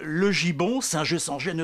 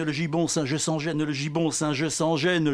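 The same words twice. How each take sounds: First: Reprise déclamée. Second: Chanted refrain, gibon and gêne buzzing; refrain déclamé. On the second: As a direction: repeat it like a chorus line. (refrain scandé, « gibon » et « gêne » appuyés) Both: Acted. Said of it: "Je vais vous faire un poème sonore".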